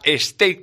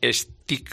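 First: The vowel is a long 'ay' sound. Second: The vowel is a short 'i' sound. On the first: The speaker calls it right. "Se pronuncia así" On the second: The speaker calls it wrong. "pero no es stick, como dicen la mayoría"

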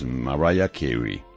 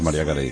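First: The name is said with American English pronunciation. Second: The name is said with Spanish pronunciation. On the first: "ella la pronuncian los americanos, es [name]" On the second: "Nosotros decimos María Carey, que es más fácil"

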